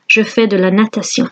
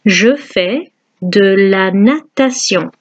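First: Quick French repeat. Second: Je fais de la natation slowly and clearly; slow French model. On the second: Teacher slowly modelling the sentence for students. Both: Shown as a demonstration.

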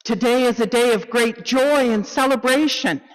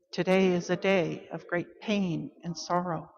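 First: Loud, higher, celebratory call; joyful proclamation. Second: Quiet, restrained lament; solemn sorrow. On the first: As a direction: ring it out with great joy. Call to worship, joy against sorrow. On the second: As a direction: let the grief subdue your voice. Call to worship, sorrow against joy. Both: Acted.

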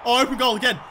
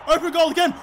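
First: Said in the usual way. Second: Higher, eager call; rising excitement. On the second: Real, not acted. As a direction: repeat it as the chance opens up.

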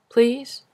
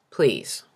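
First: "Please?" with a high rising question tune; pleading question. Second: "Please." low with a falling final tune; insistent plea. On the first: Grandfather begging to see his grandson, rising plea. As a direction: ask "Please?" hopefully, the word lifted high at the end. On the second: Grandfather begging again, falling insistent plea. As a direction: drop "Please." down low and firm. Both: Acted.

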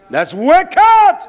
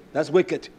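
First: High, loud preacher's shout; explosive outcry, pitch leaping up; shouted condemnation. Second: Said in the usual way. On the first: Real, not acted. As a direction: thunder it at the congregation. Repeats condemnation at full force.

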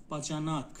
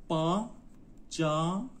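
First: Said in the usual way. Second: باجاناک slowly as با، جا، ناک; slow teaching demo of باجاناک, split into syllables. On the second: Shown as a demonstration. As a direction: sound out باجاناک in three separated beats. Teacher breaks word into syllables.

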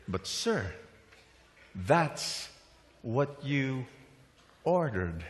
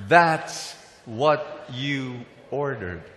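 First: Quiet waiter reply. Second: Slow, word-by-word call for repetition; leading a repeat. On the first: Acted. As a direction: let each piece land quietly, haltingly. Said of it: "And the waiter said". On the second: Shown as a demonstration. Preacher has everybody say the waiter's line, slow and emphatic. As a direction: space out each word for the crowd. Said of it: "Can everybody say that?".

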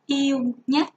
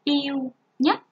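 First: "yêu nhất" called out with a rising end; first listing of the word; word listed for pupils. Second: "nhất" with a clear final ếch rhyme and rising end; careful pronunciation. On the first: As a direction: announce "yêu nhất" to the class. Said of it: "Các em chú ý cho cô từ". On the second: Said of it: "phát âm vần ếch nằm trong tiếng nhất". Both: Shown as a demonstration.

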